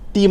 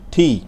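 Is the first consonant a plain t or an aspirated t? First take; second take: plain; aspirated. First: The first consonant is a plain, unaspirated t. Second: The first consonant is a breathy, aspirated t. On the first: The speaker calls it wrong. "টি না" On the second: The speaker calls it right. "এটা হচ্ছে ঠি"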